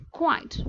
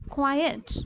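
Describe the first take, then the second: First: "quiet" said as one syllable, kwait. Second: "quiet" said as two syllables, kwai-et. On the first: Teacher shows class "quiet" as one syllable. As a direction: clip "quiet" into a single beat. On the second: Teacher shows class "quiet" in two syllables. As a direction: split "quiet" into two beats. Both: Shown as a demonstration. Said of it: "Both the words are, appear similar, but not".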